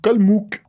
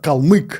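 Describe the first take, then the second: First: The second vowel is an 'oo' sound. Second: The second vowel is the Russian 'y' sound. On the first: This is how it is said in France. "vous n'arrivez pas à prononcer la lettre U, ... vous dites Kalmouk" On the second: This is how it is said in Russia. "En Russie, on appelle ça"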